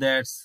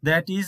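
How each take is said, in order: First: The words merge into one contracted syllable. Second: Two separate words are said in full.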